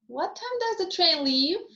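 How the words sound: The voice rises from low at the end. The speaker wants confirmation of what they already think. "the pitch pattern I would use would be low rise"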